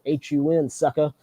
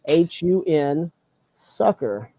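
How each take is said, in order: First: It sounds like an insult, calling someone sucker. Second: It is spelled out in a friendly way.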